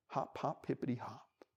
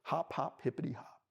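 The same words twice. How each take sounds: The two takes are said the same way.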